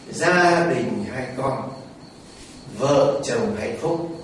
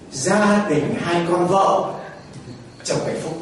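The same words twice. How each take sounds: First: The pause comes after the word con. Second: The pause comes after the word vợ. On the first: A family with two children makes a happy couple. The speaker calls it right. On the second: A family with two wives makes the husband happy. The speaker calls it wrong.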